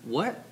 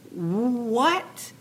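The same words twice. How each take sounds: First: Short, quiet questioning rise; softly taken aback, quick question; mild disbelief. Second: Drawn-out high rising question; big disbelief. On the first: Pharaoh hears Joseph's reply, quiet disbelief. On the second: Urging Joseph to seize his moment, hammed-up disbelief. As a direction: stretch it out, utterly incredulous. Acted bigger disbelief, repeated. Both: Acted.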